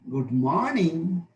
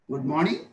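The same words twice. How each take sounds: First: The pitch falls and then rises again. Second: The pitch rises a little from low. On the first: "Fall rise" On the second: "Low rise"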